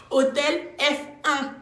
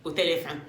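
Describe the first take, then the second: First: Hôtel F un, drawn out slowly and pitched high; scandalised, slow, higher repeat of Hôtel F un; outraged. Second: Said in the usual way. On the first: Retold or imitated. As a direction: stretch out Hôtel F un, louder and higher, like it's a scandal. Outraged repeat of hotel name.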